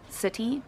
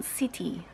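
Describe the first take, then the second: First: "city" with a schwa in the first syllable. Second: "city" with a tight high i in the first syllable; high vowel in city. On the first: Shown as a demonstration. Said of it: "we would say, so that's a schwa". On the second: Retold or imitated. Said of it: "with a high, high vowel".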